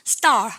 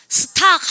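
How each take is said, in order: First: The t after s is tense and unaspirated. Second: The t after s is aspirated, Korean style. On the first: It sounds like natural English. The speaker calls it right. "영어로 해보세요" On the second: It sounds like a Korean speaker. The speaker calls it wrong. "스탁 하는 순간 한국 갑니다"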